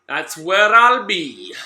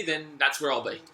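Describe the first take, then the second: First: That's where I'll be drawn out slow and loud; stretched call. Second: Said in the usual way. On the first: Shown as a demonstration. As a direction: hammer home "That's where I'll be" louder and slower.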